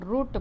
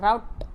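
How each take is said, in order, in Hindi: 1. British उच्चारण, 'oo' स्वर असलेले. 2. अमेरिकन उच्चारण, 'ow' स्वर असलेले. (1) "त्याला आपण रूट म्हणतो" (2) "रूटच्या ऐवजी त्याला राऊट असं म्हटलं जातं"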